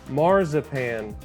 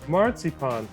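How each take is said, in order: First: It is pronounced the English way. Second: It is pronounced the German way. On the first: The speaker calls it wrong. "not marzipan" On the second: The speaker calls it right. "the correct German pronunciation is marzipan"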